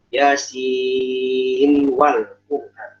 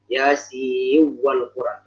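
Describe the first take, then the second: First: The n is pronounced clearly before the w. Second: The n merges nasally into the following w. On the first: "Hafs memilih dengan idhar" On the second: "memang ada yang di kedua"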